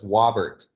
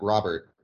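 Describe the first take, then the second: First: The name begins with a W sound. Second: The name begins with an R sound. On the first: A small child cannot yet say the R sound. The speaker calls it wrong. "I had a hard time with my R's" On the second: This is how the name is really said. The speaker calls it right. "not Robert"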